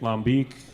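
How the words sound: It is said with a drawn-out Southern drawl. "That's the southern drawl on it"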